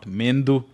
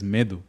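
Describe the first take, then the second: First: An n sound comes before the d. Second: No n sound comes before the d. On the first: The speaker calls it wrong. "it is not Mendu" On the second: The speaker calls it right. "it is Medu"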